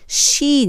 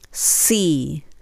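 First: The letter starts with a sh-like sound. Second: The letter starts with a clear s sound. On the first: The speaker calls it wrong. "C ではなくて" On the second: The speaker calls it right. "数にちっちゃいE がついたようなC"

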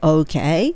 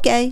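First: The word is said slowly and drawn out. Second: The word is said quickly and lightly. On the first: A backchannel showing you are listening. "相づちなのでOK っていう風に話を聞きながら" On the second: A simple, casual okay. "ただ単に軽く言うときはOK"

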